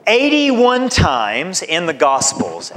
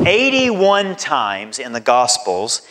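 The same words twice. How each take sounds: First: "Eighty-one" lifted higher and stressed; emphatic count, then a calmer restatement; emphatic first statement. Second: Said in the usual way. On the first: Shown as a demonstration. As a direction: punch "Eighty-one times" to make it land.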